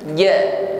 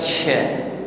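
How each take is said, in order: First: The consonant is strong, with no hissing sound. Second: The consonant is weak, with a hissing sound. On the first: The speaker calls it right. "ja kuat tekanan hurufnya" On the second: The speaker calls it wrong. "Jangan ucapkan dengan lemah dan jangan diiringi dengan bunyi desis, bukan cha"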